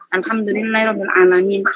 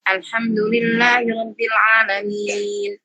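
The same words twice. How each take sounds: First: The vowel before the final n is short. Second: The vowel before the final n is long. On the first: The speaker calls it wrong. "kalau dibaca kayak gitu jadi nggak ada panjang" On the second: The speaker calls it right. "harusnya panjang... Jadi tetap panjang"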